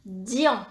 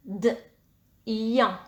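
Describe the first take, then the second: First: Said in the usual way. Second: "d, ian" split into d, a pause, then ian; sounded out. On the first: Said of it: "Première syllabe". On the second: Shown as a demonstration. Teacher dictating a first syllable to pupils, sounded out. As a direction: sound out "d, ian" in two separate parts. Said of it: "Dans dian, nous entendons d".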